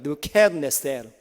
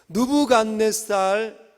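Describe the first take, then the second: First: The last syllable is pronounced 'sel'. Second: The last syllable is pronounced 'sal'. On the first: This is the original-language pronunciation. "원래 원문의 그 발음은 느부갓네셀이랍니다" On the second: This is the familiar reading form. "이게 우리가 읽는 느부갓네살입니다"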